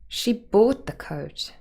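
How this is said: The stress falls on the word bought. She paid for it rather than taking it. "we could move the stress to bought"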